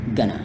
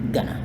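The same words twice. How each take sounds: Both takes have the same delivery.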